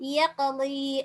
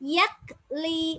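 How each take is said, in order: First: The stopped consonant gets a light, easy echo. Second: The stopped consonant is cut off with forced effort. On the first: The speaker calls it right. "அப்ப எப்படி ஓதணும்?" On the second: The speaker calls it wrong. "யக் லி ஓத கஷ்டம்"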